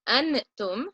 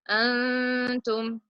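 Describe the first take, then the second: First: The n is pronounced clearly with the tongue. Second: The n is hidden and lightly nasalized. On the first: The speaker calls it wrong. "which is a clear noon in my mouth" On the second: The speaker calls it right. "I will hide the noon from my mouth, lightly put it in my, in my nose"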